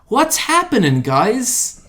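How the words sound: It is said with exaggerated, overdone emotion.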